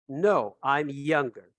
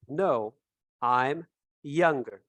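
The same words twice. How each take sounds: First: Said in the usual way. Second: "No, I'm younger" slowly, word by word; slow teacher model with a pause after "No"; slow model answer. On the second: Shown as a demonstration. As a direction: space out "No, I'm younger" for learners.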